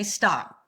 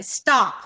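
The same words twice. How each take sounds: First: Moderately firm, controlled command; firm stop. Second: Loud, firm stop; loud command. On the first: Hand up to an angry stranger, controlled firm stop. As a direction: halt him without yelling. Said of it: "And it might shock him". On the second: Telling an angry stranger to stop, loud and firm. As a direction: halt them with one forceful word. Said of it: "I can say that really loud". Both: Shown as a demonstration.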